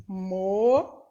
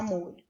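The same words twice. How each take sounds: First: "Molho" in two separate syllables; silabado. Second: Said in the usual way. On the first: Shown as a demonstration. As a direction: hold mo in "Molho", pause, then lho. ("Molho" separado em mo e lho) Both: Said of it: "Quantas vezes você abre a boca".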